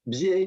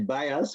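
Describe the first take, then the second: First: The name is not said like English bias. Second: The name is said like English bias. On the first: The speaker calls it right. "pronouncing my name" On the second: The speaker calls it wrong. "usually people say bias, which is a little bit less nice"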